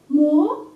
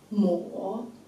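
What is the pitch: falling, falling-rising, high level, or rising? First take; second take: rising; falling-rising. First: The pitch rises from mid to high. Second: The pitch dips low and then rises.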